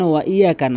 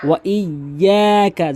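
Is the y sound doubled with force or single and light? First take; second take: single; doubled. First: The y sound is single and light. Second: The y sound is doubled and forceful. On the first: The speaker calls it wrong. "যেন ওয়া ইয়াকা না হয়" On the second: The speaker calls it right. "এভাবে"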